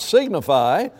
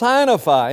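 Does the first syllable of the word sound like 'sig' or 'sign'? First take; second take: sig; sign. First: The first syllable is said like 'sig'. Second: The first syllable is said like 'sign'. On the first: The speaker calls it wrong. "It's not signify" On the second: The speaker calls it right. "it is the word sign turned into a verb"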